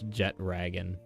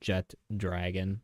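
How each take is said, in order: First: No 'd' sound comes before 'ragon'. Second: A 'd' sound comes before 'ragon'. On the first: The speaker calls it right. "even though it's Jet Ragon" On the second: The speaker calls it wrong. "the way I say it, it sounds like Jet Dragon"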